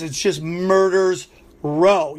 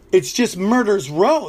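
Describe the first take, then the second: First: Murder's row, said slowly and deliberately; slow emphatic restatement. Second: Said in the usual way. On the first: Real, not acted.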